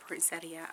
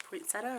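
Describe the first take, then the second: First: "poinsettia" with "-ee-uh" ending, four syllables; unsure pronunciation. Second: "Poinsettia" ending in just "-ta", three syllables; unsure pronunciation. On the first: Vlogger wondering how to pronounce it, "poinsettia" as poyn-SET-ee-uh. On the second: Vlogger wondering how to pronounce it, "Poinsettia" as poyn-SET-uh. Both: Shown as a demonstration. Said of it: "How do you pronounce that?".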